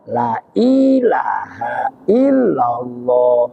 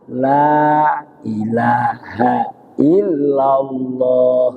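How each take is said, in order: First: 'La' is clipped; the following 'i' is lengthened. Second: The vowel in 'la' is held only briefly. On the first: "Hilang pun yang satu alif, tinggal la. Justru matnya dipindah ke hamzanya" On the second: "Yang satunya memakai cuma satu alif"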